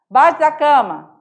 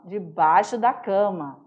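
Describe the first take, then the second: First: Baixo da cama without "de", "baxdacama"; mineiro clipped. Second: Said in the usual way. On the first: Shown as a demonstration. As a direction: cut the de off debaixo.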